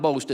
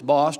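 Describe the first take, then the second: First: The vowel is long, rhyming with toast. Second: The vowel is short, rhyming with lost. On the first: The speaker calls it wrong. "it's not Boast" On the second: The speaker calls it right. "it's Bost"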